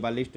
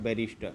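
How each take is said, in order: First: The word is said with an L sound. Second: The word is said with an R sound. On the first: The speaker calls it wrong. "ये गलत है" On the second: The speaker calls it right. "इसका सही नाम हो जाएगा बैरिस्टर"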